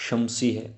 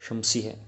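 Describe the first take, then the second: The two takes are said the same way.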